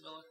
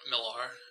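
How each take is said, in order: First: It is said with a British pronunciation. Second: It is said with an American pronunciation. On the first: "in Britain, they just because of their accent, they pronounce it Miller" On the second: "American people pronounce it Millar"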